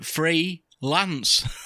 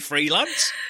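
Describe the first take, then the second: First: It is split into two words with a break. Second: It is said smoothly as a single word.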